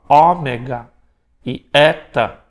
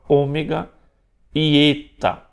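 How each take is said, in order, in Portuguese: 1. As vogais são pronunciadas abertas. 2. As vogais são pronunciadas fechadas. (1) "alguns vão falar"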